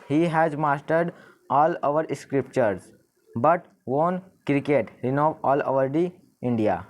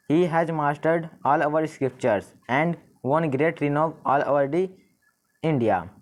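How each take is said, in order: First: Slow read-aloud with "but", testing the sentence; slow careful trial reading that lands on "but"; trying but. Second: Slow read-aloud with "and" as the linking word; slow careful trial reading that lands on "and"; trying and. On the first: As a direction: read it slowly, letting "but" land as the link. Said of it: "ये proper नहीं लग रहा हमें". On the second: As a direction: read it slowly, letting "and" land as the link. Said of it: "तो ये हमें correct लग रहा है". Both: Shown as a demonstration.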